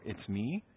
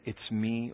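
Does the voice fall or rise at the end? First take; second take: rise; fall. First: The voice rises at the end, like a question. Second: The voice falls at the end, like a statement. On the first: It is a question. "there are no verbiage in regards to making something a question" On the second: It is a plain statement. "You make the statement and it's all in your inflection"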